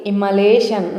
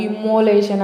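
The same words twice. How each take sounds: First: ఇమ్మోలేషన్ said correctly as i-ma-le-shan; correct pronunciation. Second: ఇమ్మోలేషన్ said wrongly as i-mo-le-shan; wrong pronunciation. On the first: Teacher giving students the correct way to say it. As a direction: model the right ఇమ్మోలేషన్ with a short a. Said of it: "ఎలా పలకాలి?". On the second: Teacher showing learners the common wrong way to say it. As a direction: give the mistaken ఇమ్మోలేషన్ with an o sound. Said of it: "wrong pronunciation". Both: Shown as a demonstration.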